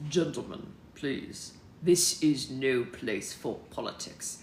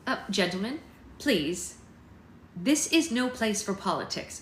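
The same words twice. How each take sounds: First: Low, slow American statesman; American accent. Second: Said in the usual way. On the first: Acted. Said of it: "this is even better". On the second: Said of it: "said an American accent".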